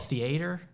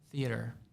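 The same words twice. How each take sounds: First: The word has a Southern pronunciation. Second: The word has a standard pronunciation. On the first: This is how people say it back home. "I'm from the South... we used to call it theater" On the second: This is the pronunciation adopted later. "now I say theater, and I think that's the right way"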